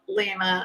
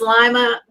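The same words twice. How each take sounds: First: The first vowel sounds like 'ee', as in 'see'. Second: The first vowel sounds like 'eye', as in 'lima beans'. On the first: The speaker calls it wrong. "not Lima" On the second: The speaker calls it right. "so it's Lima"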